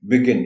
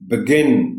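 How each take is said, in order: First: The stress is on the first syllable. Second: The stress is on the second syllable. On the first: The speaker calls it wrong. "बी पर stress डाल" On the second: The speaker calls it right. "Stress जी पर है"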